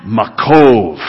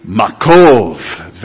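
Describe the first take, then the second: First: Makov said again, shorter and falling; second try at Makov with the congregation, falling at the end; group repeat. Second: Makov said together with the class, slow and drawn; group repeat. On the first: Congregation trying the Hebrew word once more, falling finish. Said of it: "Let's try it one more time". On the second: Pastor leading the congregation to repeat the word, slowly drawn. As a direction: repeat Makov after the teacher, stretching the final v. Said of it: "You want to say that together". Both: Shown as a demonstration.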